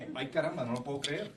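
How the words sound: It is delivered in a casual, natural way. The line comes organically from the speaker. The speaker calls it right. "it has to be a very normal thing"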